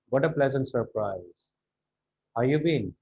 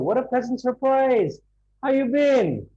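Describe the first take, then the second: First: The voice is flat and gloomy. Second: The voice is lively and excited. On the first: The speaker is not glad to see the friend. The speaker calls it wrong. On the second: The speaker is glad to see the friend. The speaker calls it right.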